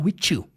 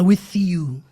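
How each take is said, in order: First: The th is said as a t sound. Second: The th is said with tongue between teeth. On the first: "Ele fala o T H com som de T" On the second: "colocando ali a ponta da língua entre os dentes"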